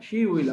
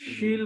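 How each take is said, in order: First: Both words are said in full form. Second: The words are contracted into one syllable.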